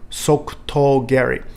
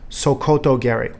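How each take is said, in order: First: The second vowel sounds like 'u'. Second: The second vowel sounds like 'o'. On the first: The speaker calls it right. "Let's do it together" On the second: The speaker calls it wrong. "we hear quite a few people in the United States say Sokoto geri. That is the incorrect pronunciation"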